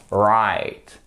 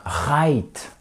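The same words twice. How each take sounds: First: "right" lower, with a heavy American R. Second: "right" with a French throat R. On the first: Teacher corrects learners, "right" with an American R. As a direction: stretch "right" Texan-style, deep curled r. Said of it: "comme au Texas". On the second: Teacher shows the mistake, "right" with a French R. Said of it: "C'est pas un right". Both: Shown as a demonstration.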